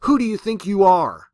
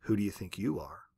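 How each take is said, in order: First: Loud, higher furious roar. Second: Lower, softer echoing return; faraway echo. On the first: Retold or imitated. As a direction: bellow it at heaven. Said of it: "and she roared". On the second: Shown as a demonstration. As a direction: let it come back faint from far off. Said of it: "what would it sound like if that were to echo".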